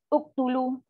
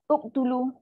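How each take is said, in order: The two takes are said the same way.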